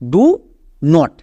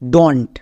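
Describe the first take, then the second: First: It is said as two separate syllables. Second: It is said as one contracted syllable. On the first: "এখানে আমাদের দুটো word আছে" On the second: "এর উচ্চারণটা হয়ে যায় ডন্ট"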